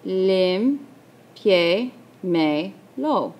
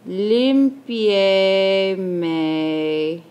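First: "limpiémelo" as lim, pie, me, lo with long pauses; very slow "limpiémelo", each syllable alone; split into syllables. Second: "limpiémelo" stretched out, syllables running on, pause before lo; very slow dictation. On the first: Teacher dividing for students, "limpiémelo" in four separate syllables. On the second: Teacher saying the word as she writes, "limpiémelo" very drawn out. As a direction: draw out every syllable of "limpiémelo". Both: Shown as a demonstration.

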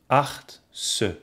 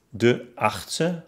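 First: Acht-ste, split by a pause; achtste by syllables. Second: Said in the usual way. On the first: Shown as a demonstration. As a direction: break achtste after the t. (achtste in Silben getrennt) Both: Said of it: "ob die entstandenen Silben".

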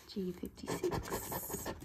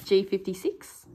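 First: Slow breathy whisper, barely audible. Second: Said in the usual way. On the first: Real, not acted. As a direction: whisper the number slowly to yourself. Repeats the number under breath.

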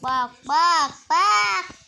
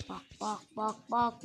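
First: Loud, higher calling; calling out loudly. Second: Said in the usual way. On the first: Real, not acted. Gamer calling viewers to look, loud shout.

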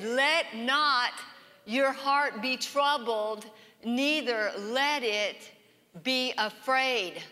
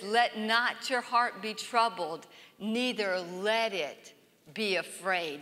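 First: Slow, deliberate proclamation; emphatic scripture. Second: Slow, softening to a hush at the end; tender, slow quote fading out; soft scripture reading. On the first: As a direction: declare it firmly, word by word. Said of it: "he said". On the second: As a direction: read it gently, letting it fade. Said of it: "And then he says". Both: Shown as a demonstration.

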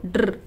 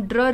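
First: ड्र as pure "drr", no vowel after it; correct blend sound. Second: ड्र with an added full vowel, like "dra"; mispronounced blend. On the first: Teacher showing learners how to read the blend, ड्र as vowelless "drr". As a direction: run d straight into a held r for ड्र. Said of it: "इसको हम ड्र read नहीं करेंगे, इसको ड्र". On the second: Teacher showing learners how not to read the blend, ड्र with a vowel added. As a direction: say ड्र as an open syllable, "dra". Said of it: "इसको हम ड्र रीड नहीं करेंगे". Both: Shown as a demonstration.

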